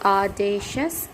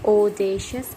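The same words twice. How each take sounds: First: It is said in an American accent. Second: It is said in a British accent. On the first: "in American" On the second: "in British"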